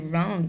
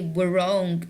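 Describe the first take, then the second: First: The word starts directly with an R sound. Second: The word starts with a pronounced W sound. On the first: The speaker calls it right. "I will say wrong because W here is silent" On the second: The speaker calls it wrong. "I will not say"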